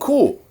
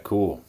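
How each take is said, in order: First: It is said with impressed, enthusiastic pitch. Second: It is said with flat, unimpressed pitch. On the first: The thing is truly admired. "if you're really impressed by something" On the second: The thing is not admired at all. "if you're not impressed at all"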